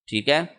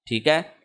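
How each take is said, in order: No difference in how they are said.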